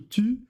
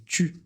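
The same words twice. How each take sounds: First: The t is a plain, crisp t sound. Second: The t has a slight ch-like hiss. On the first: The speaker calls it wrong. "on ne fait pas ti ou tu" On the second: The speaker calls it right. "c'est ti et tu"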